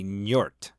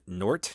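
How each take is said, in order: First: It starts with an n followed by y. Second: It starts with a plain n sound. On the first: The speaker calls it right. "Like with a Y" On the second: The speaker calls it wrong. "it's not Nort"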